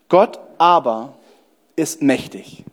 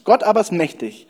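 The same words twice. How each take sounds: First: It is read slowly and deliberately. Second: It is read at a normal pace.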